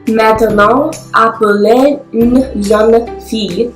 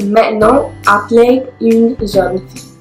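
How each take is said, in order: First: The normally silent e sounds are pronounced. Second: The normally silent e sounds are dropped. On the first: "elle prononce les muets" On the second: "au lieu de"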